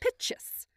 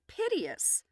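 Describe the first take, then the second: First: The word is said with two syllables. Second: The word is said with three syllables. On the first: The speaker calls it right. "because there's an apostrophe after the P-I-T before the O-U-S" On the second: The speaker calls it wrong. "piteous is not piteous"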